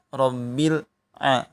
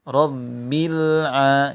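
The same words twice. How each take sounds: First: There is a break after Rabbil. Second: The words run together without a break. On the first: The speaker calls it wrong. "Jangan pula di uh, jeda. Rabbil a tidak juga" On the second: The speaker calls it right. "ditahan. Rabbil a gitu ya"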